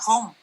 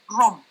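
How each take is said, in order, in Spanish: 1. La R se produce en la garganta, es gutural. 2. La R es un sonido más fuerte y duro. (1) "una R gutural como una R, diríamos, francesa o de pronto portuguesa" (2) "una R más fuerte"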